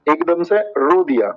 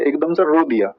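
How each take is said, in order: First: Slower, stretched-out repeat of एकदम से रो दिया. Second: Said in the usual way. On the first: Shown as a demonstration. Teacher repeating the mnemonic to students, slowly. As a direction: drag out एकदम से रो दिया to drive it home. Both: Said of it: "repeated at once, slower".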